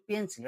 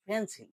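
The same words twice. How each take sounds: First: Said in the usual way. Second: "পেন্সিল" with a puffed P, like ফেন্সিল; aspirated P. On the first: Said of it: "right accent হলো পেন্সিল". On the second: Shown as a demonstration. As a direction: burst air on the first sound of "পেন্সিল". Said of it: "right accent হলো". ("পেন্সিল"-এর প-তে মহাপ্রাণ উচ্চারণ)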